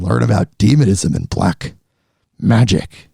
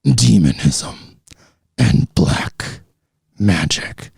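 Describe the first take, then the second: First: Deep, growling demon voice. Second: Deeper, darker demon growl. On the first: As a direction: drop low into a sinister demon. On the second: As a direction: push the demon voice even lower and eerier. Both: Pretend. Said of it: "that was my demon voice".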